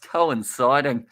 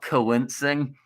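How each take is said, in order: First: The word is said with four syllables. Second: The word is said with three syllables. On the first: The speaker calls it right. "It's coinciding" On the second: The speaker calls it wrong. "not coincing"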